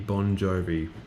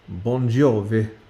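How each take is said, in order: First: It is said with a plain English accent. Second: It is said with an exaggerated Italian accent.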